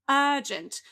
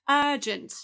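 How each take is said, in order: The two takes are said the same way.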